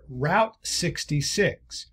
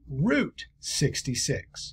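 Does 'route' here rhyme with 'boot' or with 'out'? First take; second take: out; boot. First: Route is said with the vowel of out. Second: Route is said with the vowel of boot.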